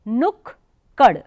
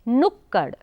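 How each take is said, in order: First: The word is split into two separate parts. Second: The first k is short and joined smoothly. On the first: The speaker calls it wrong. "नुक कड़ शब्द गलत होता है" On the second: The speaker calls it right. "पहला वाला क ... बहुत कम समय लगा, एकदम जल्दी से तुरंत बोल दिया"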